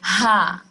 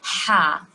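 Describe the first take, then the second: First: It has a plain, soft h sound. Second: It has a harsh h squeezed from the throat. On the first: The speaker calls it wrong. "Most of the people pronounce it ha. It's not a ha" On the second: The speaker calls it right. "we should try hard to pronounce it in the right way"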